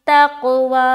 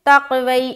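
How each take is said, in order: First: The word ends on a long 'aa' sound. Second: The word ends with an added 'ee' sound. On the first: The speaker calls it right. "या साइलेंट है, या को नहीं पढ़ना" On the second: The speaker calls it wrong. "बाज़ोकात लोग यहाँ पर तक़वई पढ़ते हैं"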